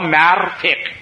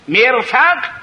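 First: The first vowel is a, the second i. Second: The first vowel is i, the second a. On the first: "او بالعکس" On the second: "بکسر المیم و فتح الفا"

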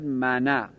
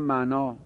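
First: The final vowel is a short a. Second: The final vowel is a long a.

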